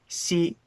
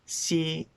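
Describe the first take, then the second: Both takes have the same delivery.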